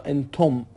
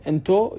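First: «انتم» pronounced entom, m heard clearly; با میم پایانی. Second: «انتو» pronounced ento, with an open ending; بدون میم پایانی. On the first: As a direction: close «انتم» on a sounded m. («انتم» با صدای میم در پایان) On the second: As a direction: leave «انتو» without its closing m. («انتو» بدون صدای میم) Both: Shown as a demonstration. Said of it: "میمش گاهی اوقات اصلاً شنیده نمیشه".

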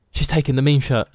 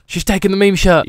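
First: Gasp, then say it in awe; contained astonished aside; gasping amazement. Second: Higher, excited repeat; excited amazement. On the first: Shopkeeper watching his meme shirt get taken, gasping amazement. Gasps as customer takes shirt. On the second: Shopkeeper thrilled his meme shirt is selling, excited amazement. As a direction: announce it with rising excitement. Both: Pretend.

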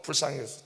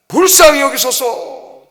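First: Said in the usual way. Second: Loud, high, drawn-out plea; crying out louder. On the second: Acted. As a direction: call out for mercy with full voice. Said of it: "더 크게 외치는 거죠".

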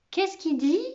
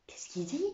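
First: Higher-pitched, voiced query; puzzled question. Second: Very soft, puzzled whisper; whispered question. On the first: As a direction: ask aloud, baffled. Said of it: "demanda Camo". (question perplexe à voix haute) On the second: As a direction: whisper it to a classmate. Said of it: "chuchota Lantier". (question chuchotée) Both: A narrator's reading.

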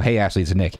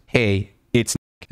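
First: Said in the usual way. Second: Slow, drawn-out mock of "Hey, it's Nick."; slow mocking read. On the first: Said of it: "So you said a declarative twice". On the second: Shown as a demonstration. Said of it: "Like, you're declaring things".

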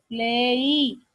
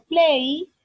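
First: "Play" drawn out into two sounds, "ple-i"; two-sound demonstration. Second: Said in the usual way. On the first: Shown as a demonstration. Teacher showing students the sounds in a verb, "Play" split in two. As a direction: stretch "Play" so both vowel sounds show. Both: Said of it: "tiene dos sonidos".

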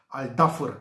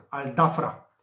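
First: "Al Dafr" ending on a short vowel and r; believed correct pronunciation. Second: "Al Dafra" ending in an open a; as written. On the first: Tipster wrestles with the name, "Dafr" without a final a. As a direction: say "Al Dafr" as "al DA-fur". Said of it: "am scăpat de această pronunție". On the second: Tipster gives the app's version, "Dafra" with a clear final a. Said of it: "Al Dafra stau scriși în aplicații". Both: Shown as a demonstration.

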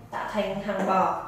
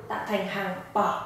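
The two takes are said the same way.

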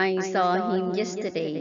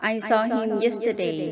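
First: Said in the usual way. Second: I saw him yesterday read very slowly, saw stressed; slow model reading. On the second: Shown as a demonstration. Teacher reading a model sentence for students to repeat, slowly. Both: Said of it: "หัดอ่านตามประโยคเหล่านี้".

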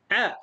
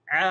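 First: ع as a short, cut-off 'a'; one brief beat on ع; short vowel. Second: ع with a long, held 'aa'; long vowel. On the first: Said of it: "صوت قصير". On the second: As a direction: draw out the vowel of ع. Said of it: "طويل". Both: Shown as a demonstration.

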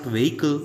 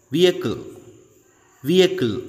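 First: "vehicle" as two-syllable "vay-kul"; wrong VEHICLE. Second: "vehicle" as "VEE-uh-kul", silent H; correct VEHICLE. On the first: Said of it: "It's not vehicle". ("vehicle" mispronounced as "vay-kul") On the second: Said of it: "It's not vehicle, it's". ("vehicle" in three syllables, "vee-uh-kul") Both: Shown as a demonstration.

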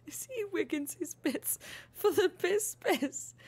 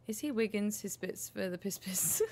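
First: Higher, slower goofy put-on voice; silly voice. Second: Said in the usual way. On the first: Real, not acted. Mocking Wiggins, high and slow in a daft voice. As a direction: repeat the joke in a daft character voice.

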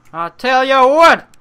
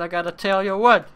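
First: Much higher and louder, hammed up; loud declaration. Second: Lively build-up. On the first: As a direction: proclaim it to the crowd. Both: Shown as a demonstration. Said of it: "repeated louder".

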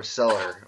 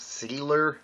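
First: "seller" with a short E; short E pronunciation. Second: "Sealer" with a long EE; long EE pronunciation. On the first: Co-host asking how cellar is said, short E in "seller". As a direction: say "seller" with the first vowel as in sell. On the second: Co-host asking how cellar is said, long EE in "Sealer". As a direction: say "Sealer" with the first vowel as in seal. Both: Shown as a demonstration. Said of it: "Is it really badly pronounced".

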